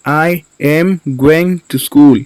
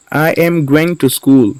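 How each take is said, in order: First: Slow, separated words for learners. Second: Said in the usual way. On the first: Shown as a demonstration. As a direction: say "I am going to school" slowly, words apart. Teacher repeats word by word.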